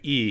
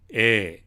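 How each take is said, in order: First: It is said in standard Japanese pronunciation. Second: It is said in Kansai dialect pronunciation. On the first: "instead of saying e" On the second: "in a Kansai dialect, in the way that Zeke talks"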